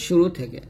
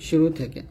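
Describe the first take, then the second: No difference in how they are said.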